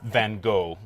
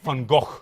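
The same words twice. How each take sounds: First: The name is said with an English pronunciation. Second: The name is said with a Dutch pronunciation. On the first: The speaker calls it wrong. "we as English speakers kind of fudge it a little bit by saying Van Gogh" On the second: The speaker calls it right. "the Dutch pronunciation ... it sounds more like Van Gogh"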